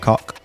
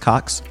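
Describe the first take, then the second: First: The name ends in a plain k sound. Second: The name ends in a ks sound. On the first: Someone else mispronounced the name. The speaker calls it wrong. "that dude kept saying... Mr. Cock" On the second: This is the name's correct form. The speaker calls it right. "I was like, it's Cox"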